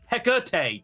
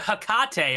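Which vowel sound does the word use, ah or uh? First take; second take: uh; ah. First: The word is said with an uh vowel. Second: The word is said with an ah vowel. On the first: The speaker calls it right. "That's pronounced with an uh, not an ah" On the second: The speaker calls it wrong. "That's not how you pronounce that"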